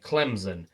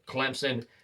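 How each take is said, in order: First: The middle consonant is a z sound. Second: The middle consonant is an s sound. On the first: The speaker calls it wrong. "There's no Z in the word" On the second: The speaker calls it right. "it's pronounced exactly like it's spelled"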